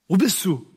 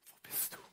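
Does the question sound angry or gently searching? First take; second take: angry; searching. First: The question sounds angry and reproachful. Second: The question sounds gentle and searching.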